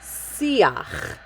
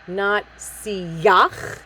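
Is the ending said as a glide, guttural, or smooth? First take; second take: smooth; glide. First: The vowel slides smoothly into a soft ending. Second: A strong y glide comes before the vowel. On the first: The speaker calls it right. "it's just going to diphthong right into it" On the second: The speaker calls it wrong. "a strong yud, siyach"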